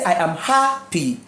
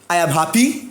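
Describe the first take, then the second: First: The stress is on the first syllable. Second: The stress is on the second syllable. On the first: The speaker calls it right. "you say I am happy" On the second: The speaker calls it wrong. "You cannot say I am happy"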